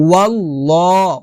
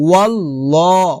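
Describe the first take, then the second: The two takes are said the same way.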